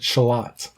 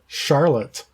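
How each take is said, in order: First: Charlotte is said the local Rochester way. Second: Charlotte is said the ordinary, familiar way. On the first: This is how the locals say the name. The speaker calls it wrong. "you pronounce it Charlotte" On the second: This is how the name is written. The speaker calls it right. "towns that are spelt Charlotte"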